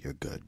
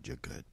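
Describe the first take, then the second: First: Said in the usual way. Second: Whispered under the breath; whispering. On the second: Real, not acted. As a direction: drop to a whisper. Reassuring caller, then repeats softly.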